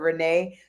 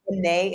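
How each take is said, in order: First: The name begins with an English R sound. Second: The name begins with an H-like sound. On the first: "instead of Renee" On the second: "the R is pronounced like an H, and I say my name Renee"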